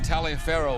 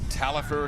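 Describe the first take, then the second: First: The name is said with all its spelled syllables. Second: The name is said in a shortened form. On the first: The speaker calls it wrong. "although it's not pronounced that way" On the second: The speaker calls it right. "I think Talifer it's pronounced"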